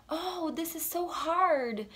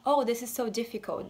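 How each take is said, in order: First: Slow, lightly acted complaint; lightly voiced American. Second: Said in the usual way. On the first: Shown as a demonstration. Teacher imitating a student, slow mock complaint. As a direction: sigh it out like a frustrated student. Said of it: "eles vão falar assim". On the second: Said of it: "Não vão falar".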